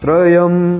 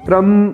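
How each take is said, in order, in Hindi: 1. tr के बाद y की ध्वनि आती है। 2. tr के बाद y की ध्वनि नहीं है। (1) "तो हमें बोलना क्या है" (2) "य का उच्चारण करते ही नहीं"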